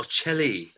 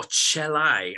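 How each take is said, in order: First: "celli" said as "CHEL-ee", ending in an ee sound; "celli" with a final "ee" vowel; alternative plural. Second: "celli" said as "CHEL-eye", ending in an eye sound; "celli" with a final "eye" vowel; alternative plural. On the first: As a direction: pronounce "celli" as chel-ee, like cello with an ee. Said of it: "the plural of cello". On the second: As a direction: pronounce "celli" as chel-eye, long i at the end. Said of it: "I think it's celli". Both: Shown as a demonstration.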